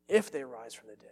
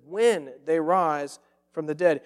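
First: If leaned on, softer, then trailing off; wrong version, stress on If. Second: When punched, louder and slow; stress on When. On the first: Preacher contrasting the wrong word for his congregation, stressing If quietly. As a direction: quote If as the word Jesus avoids. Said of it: "notice first what Jesus does not say". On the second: Preacher correcting the congregation, slow and emphatic on When. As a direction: hit When hard and draw the line out. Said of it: "No, Jesus says". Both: Shown as a demonstration.

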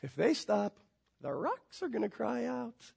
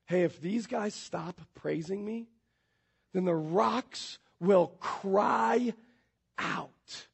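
First: Offhand mock sarcasm, trailing softer; almost sarcastic. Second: Slow, soft, measured declaration; lightly voiced Jesus. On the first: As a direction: toss it off with light sarcasm. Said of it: "almost sarcastically going". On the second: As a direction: draw out the last words, quietly weighty. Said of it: "Jesus does make that statement".

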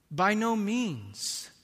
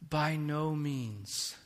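First: By no means said slowly, higher and louder, stress on no; emphatic repeat. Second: Said in the usual way. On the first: Acted. Preacher repeating Paul's answer, higher and louder. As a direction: hammer home By no means, weight on no.

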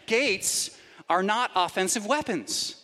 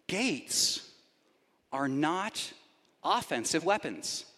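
First: Said in the usual way. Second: Gates, then a pause, are NOT, then a pause, offensive weapons, said softer with NOT stressed; slow dramatic emphasis. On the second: Shown as a demonstration. Preacher to congregation, unveiling his point slowly and softly with NOT stressed. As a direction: lay each word down slowly and quietly with long pauses, stressing NOT.

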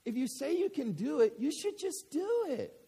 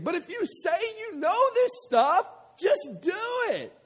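First: Put-on little girl. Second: Much higher and louder, punching it out; forceful preaching. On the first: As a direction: say it plainly like an innocent four-year-old. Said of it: "This is what she says to him". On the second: Acted. Preacher applying the girl's words to the congregation, loud preaching. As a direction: hammer the lesson home. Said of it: "preaching the same line".

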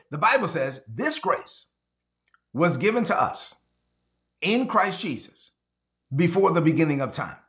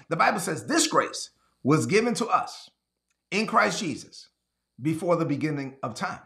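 First: Said in the usual way. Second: Slowly. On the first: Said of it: "Let me read that again slowly". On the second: Shown as a demonstration. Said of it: "Let me read that again slowly for the people in the back".

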